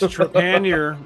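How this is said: The name is said with an English pronunciation. This is how the family says it. "in English, which is like the way we pronounced it"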